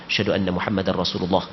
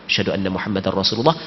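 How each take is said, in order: Both takes have the same delivery.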